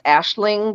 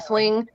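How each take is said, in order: First: The name is given its Irish pronunciation. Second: The name is given an Americanized pronunciation. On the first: "it's actually pronounced Ashling because it's Irish" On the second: "Americanized, it's uh, pronounced"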